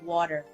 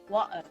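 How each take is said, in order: First: The middle t is a clear t. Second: The middle t is a glottal stop. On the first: "instead of water" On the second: "that little glottal water"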